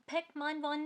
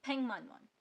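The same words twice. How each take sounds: First: 백만 원 with a hard k stop; wrong unassimilated reading. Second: 백만 원 as baeng-man won; correct assimilated reading. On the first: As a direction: read 백만 원 as baek-man won, wrongly. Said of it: "नहीं". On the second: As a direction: say 백만 원 with ng before m. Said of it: "तो". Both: Shown as a demonstration.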